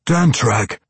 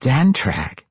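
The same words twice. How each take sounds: First: Higher-pitched exclamation; crying out. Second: Higher-pitched questioning echo; startled echo. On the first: Weapons master names the sword's old owner, crying out. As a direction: cry the name DANTRAG out, moderately raised. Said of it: "Anzarel cried". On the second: Matron hears her dead brother's name, echoing it. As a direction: echo the name DANTRAG back, a little less forcefully. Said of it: "Quenthel Behenry echoed". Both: A narrator's reading.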